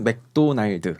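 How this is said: It is said with a Korean accent. "한국에서는 맥도날드 이렇게 합니다"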